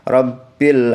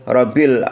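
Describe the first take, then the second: First: The b is doubled and held briefly. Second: The b is single and not held. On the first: The speaker calls it right. "ba-nya kita tebalkan beberapa saat" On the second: The speaker calls it wrong. "tidak ditekankan atau tidak ditasydidkan"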